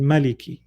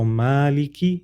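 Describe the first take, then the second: First: "maliki" with a short a, ma-liki; quick opening syllable in "maliki"; short first vowel. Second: "maliki" with a long aa, maa-liki; recited "maliki" drawn out on the first syllable; long first vowel. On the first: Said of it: "is also correct". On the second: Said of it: "difference between different ways of reciting". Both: Shown as a demonstration.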